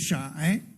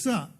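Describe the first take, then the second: First: The word begins with a sh sound. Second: The word begins with an s sound. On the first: This is the native Beijing form of the word. "it should be shai" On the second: This is the standard form, borrowed from Nanjing Mandarin. "The standard pronunciation is sa with a sa, not a sh"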